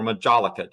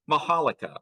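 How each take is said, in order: First: Majolica said with an English J, "ma-JOL-i-ca"; majolica with hard J. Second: Majolica said with a Spanish J, "ma-HA-li-ca". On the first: Lecturer offering the other pronunciation, majolica said "ma-JOL-i-ca". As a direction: say majolica with the J as in jolly. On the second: Lecturer naming Spanish tin-glazed wares, majolica said "ma-HA-li-ca". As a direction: say majolica with an H sound for the J. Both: Shown as a demonstration. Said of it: "depending on how you pronounce it".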